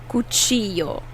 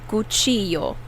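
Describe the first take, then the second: No difference in how they are said.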